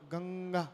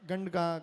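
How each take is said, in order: First: A nasal flows straight into the middle g. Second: A d sound is inserted before the middle g. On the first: The speaker calls it right. "तो गंगा बोल रहे हो ना आप" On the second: The speaker calls it wrong. "लोग पढ़ते हुए इसको गंडा, गंडगा पढ़ेंगे"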